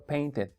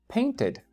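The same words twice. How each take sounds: First: The d is a soft Spanish-style dental sound. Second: The d is a crisp English-style tongue-ridge sound. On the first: The speaker calls it wrong. "no estoy diciendo painted. Uh -uh" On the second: The speaker calls it right. "Dije painted. ¿Se dan cuenta cómo mi lengua no se asomó?"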